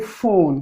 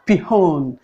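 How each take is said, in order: First: The p and h are one f sound. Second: The p and h are sounded separately. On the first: The speaker calls it right. "these two are articulated at one as one sound" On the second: The speaker calls it wrong. "you don't say pihon"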